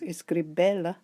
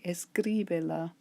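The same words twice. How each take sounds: First: The stress is on the third syllable, be. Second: The stress is on the second syllable, cri. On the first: The speaker calls it wrong. "The stress should be on the next to last, but it doesn't turn out as escribela" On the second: The speaker calls it right. "keep that stress on the I"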